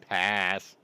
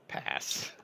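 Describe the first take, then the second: First: Firm loud no-thanks; louder pass. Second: Breathy whispered refusal; whispered pass. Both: Real, not acted. Refusing an overpriced gun.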